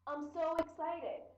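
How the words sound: The voice sounds lively and enthusiastic. The person is genuinely excited. "This person is really excited"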